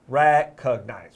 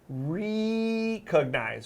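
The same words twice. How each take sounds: First: The first syllable has a short E vowel. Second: The first syllable has a long E vowel. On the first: The speaker calls it right. "with that short E sound" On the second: The speaker calls it wrong. "we don't say recognize"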